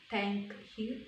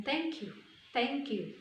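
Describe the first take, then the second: First: Said in the usual way. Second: "Thank you" run together so the k glides into you; "Thank you" linked with no gap, falling at the end; linked words. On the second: Shown as a demonstration. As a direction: join "Thank you" as one word, thank-kyou.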